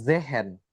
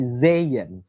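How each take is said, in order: First: The middle sound is a breathy h. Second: The middle sound is a y glide. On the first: The speaker calls it wrong. "bukan Zehen" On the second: The speaker calls it right. "tapi Zeyen, seperti itu"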